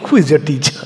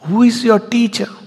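First: It is asked with mocking scorn. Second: It is asked with awe and wonder.

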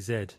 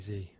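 First: The letter is said the British English way. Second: The letter is said the American way.

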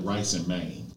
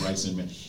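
First: The last word is said with a long 'ay' vowel. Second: The last word is said with a short vowel. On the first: This is how local people say the name. "They call it" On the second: This is how the name reads on the sign. "It says"

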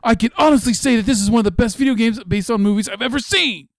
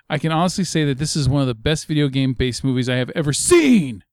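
First: It is read with exaggerated excitement. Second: It is read in a plain, flat way.

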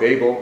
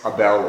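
First: The name is pronounced the American way. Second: The name is pronounced the Philippine way. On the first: "I always call him Abel because I'm from the United States" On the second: "the correct pronunciation in the Philippines"

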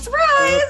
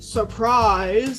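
First: It is said excitedly, the voice going up. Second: It is said flat, without the voice going up.

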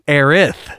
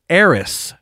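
First: The name ends with a th sound. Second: The name ends with an s sound. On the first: This is the name used in the new game. "in the new game, she's Aerith" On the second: This is the name used in the original game. "in the original game, she's Aeris. A-E-R-I-S"

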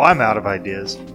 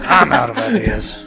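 First: It is said in the speaker's normal voice. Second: It is said in Wayne's character voice.

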